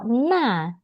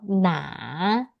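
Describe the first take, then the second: First: The syllable has a sharply falling fourth tone. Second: The syllable has a low dipping third tone. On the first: It means that. "dia yang nggak ada kotaknya, dia adalah nada keempat" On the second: It means which. "berarti adalah yang mana"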